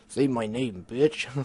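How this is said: It is said in a deep voice.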